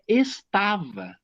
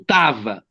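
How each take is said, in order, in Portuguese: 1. A primeira sílaba é pronunciada por completo. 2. A primeira sílaba é omitida. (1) "mas é estava" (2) "O tava é uma variante"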